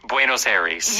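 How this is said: It is pronounced with an American English pronunciation. The speaker does not know Spanish. "an American who does not know Spanish would say Buenos Aires"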